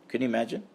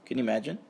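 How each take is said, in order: Both takes have the same delivery.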